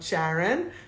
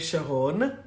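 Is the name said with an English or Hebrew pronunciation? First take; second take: English; Hebrew. First: The name has an English pronunciation. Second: The name has a Hebrew pronunciation. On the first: The speaker calls it wrong. "not Sharon" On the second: The speaker calls it right. "which is an Israeli name, Sharon"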